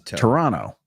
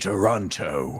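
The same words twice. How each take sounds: First: The second T is softened or dropped. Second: The second T is pronounced clearly and hard. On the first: The speaker calls it right. "It's Toronto" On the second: The speaker calls it wrong. "So many people say Toronto and with the hard T"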